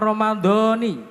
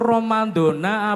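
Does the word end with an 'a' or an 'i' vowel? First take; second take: i; a. First: The word ends with an 'i' vowel. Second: The word ends with an 'a' vowel. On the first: "bahasa yang fasih itu Romaudoni" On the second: "Itu Ramadona apa Ramadoni?"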